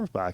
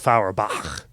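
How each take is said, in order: First: The name starts with a 'fur' sound. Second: The name starts with a 'fow' sound. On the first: This is how the family actually says it. The speaker calls it wrong. "that's actually how my name is" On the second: This is the original way the name should sound. The speaker calls it right. "is how it's supposed to be said"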